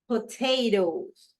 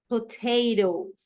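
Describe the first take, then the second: No difference in how they are said.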